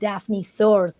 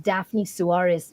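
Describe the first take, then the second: First: The surname is said as one syllable, like soars. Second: The surname is said with two syllables. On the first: The speaker calls it wrong. "he was a little bit mispronouncing" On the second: The speaker calls it right. "my name is pronounced as"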